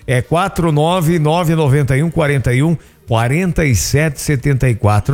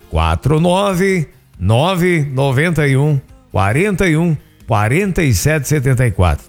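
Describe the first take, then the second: First: The number is read at a quicker pace. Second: The number is read slowly with pauses.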